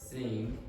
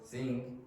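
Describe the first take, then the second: The two takes are said the same way.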